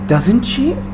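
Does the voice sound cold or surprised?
surprised. It sounds surprised and emotional. The news is unexpected. The speaker calls it right. "you want to show surprise"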